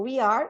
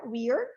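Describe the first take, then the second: First: It is said as two separate full words. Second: It is contracted into a single syllable. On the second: "também está omitindo a letra o A"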